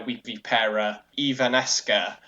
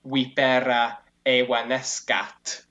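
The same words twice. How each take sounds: First: Anglicised "vipera evanesca" with English v; English-sounding spell "vipera evanesca"; film's mispronounced Latin. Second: "Vipera evanescat" slowly with v as w and a final T; slow, careful classical "Vipera evanescat"; correct Latin pronunciation. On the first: Retold or imitated. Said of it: "Snape says". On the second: Shown as a demonstration. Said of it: "which is supposed to be".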